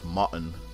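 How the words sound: The R after the vowel is silent. This is how British speakers say it. The speaker calls it wrong. "No R's. They would completely ignore all those R's"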